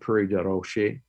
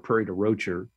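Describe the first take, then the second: First: The name is said with a French pronunciation. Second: The name is said with an anglicized local pronunciation. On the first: This is the original French form of the name. The speaker calls it right. "but it's Prairie de Roche is in French" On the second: This is how some people locally say the name. The speaker calls it wrong. "Some people call it, Prairie or Prairie de Rocher"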